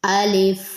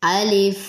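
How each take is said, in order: Both takes have the same delivery.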